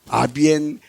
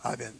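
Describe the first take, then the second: First: The word is said slowly, each syllable drawn out. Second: The word is said quickly, at conversational speed. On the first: "천천히 말하면 아비엔이고" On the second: "그냥 대화 속도로 말하면 아비엔인 거예요"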